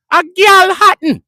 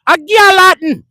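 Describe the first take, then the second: First: Slow, high, loud Jamaican "A Galhattan" stretched out; drawn-out Jamaican accent. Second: High, loud Jamaican "A Galhattan"; Jamaican accent. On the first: Jamaican friend repeating his point, in a slow, stretched-out Jamaican accent. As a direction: drag "A Galhattan" out slowly in a Jamaican voice. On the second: Jamaican friend answering the question, in a loud high Jamaican accent. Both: Retold or imitated. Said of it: "That's what my Jamaican man said".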